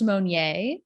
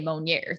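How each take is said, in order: First: The name has its original, untwanged pronunciation. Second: The name has a Nebraska family twang.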